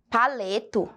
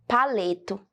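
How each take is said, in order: Both takes have the same delivery.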